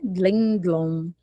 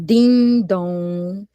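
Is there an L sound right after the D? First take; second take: yes; no. First: An L sound follows each D. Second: No L sound follows either D. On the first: "no caso eu coloquei o L" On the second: "sem o L fica mais fácil para a criança"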